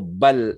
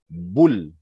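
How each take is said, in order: First: The b is followed by an 'a' vowel. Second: The b is followed by a 'u' vowel. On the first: "atau bal" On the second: "tidak boleh dibaca bul"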